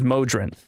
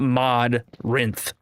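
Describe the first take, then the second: First: The word splits as mo plus drinth. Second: The word splits as mod plus rinth. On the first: "I would go Mo and then Drinth as the rest" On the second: "Not Mod Rinth"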